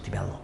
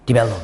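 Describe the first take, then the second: First: Develop repeated much softer, almost under the breath; hushed echo. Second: Said in the usual way. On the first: Shown as a demonstration. Teacher softly repeating Develop to the class, hushed. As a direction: drop Develop to a near murmur. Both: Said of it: "이렇게 말했죠".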